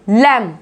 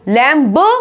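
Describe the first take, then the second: First: The final b is silent. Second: A final b sound is pronounced. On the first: The speaker calls it right. "क्या बोलेंगे इसको? लैम" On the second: The speaker calls it wrong. "लैम्ब नहीं बोलेंगे"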